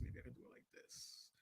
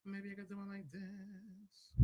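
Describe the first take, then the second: First: Breathy test whisper, no voice at all; whispered mic test. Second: Drawn-out quiet test line; slow soft mic test. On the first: Testing the mouth camera for viewers, whispered. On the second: Testing the mouth camera for viewers, slow and soft. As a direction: say it slowly and softly. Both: Shown as a demonstration. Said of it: "I didn't like it as a camera on my mouth".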